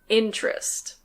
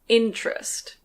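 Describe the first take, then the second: The two takes are said the same way.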